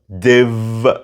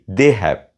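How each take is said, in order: First: The words merge into one contracted syllable. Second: Both words are said fully and separately. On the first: The speaker calls it right. "Say they've" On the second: The speaker calls it wrong. "Don't say they have"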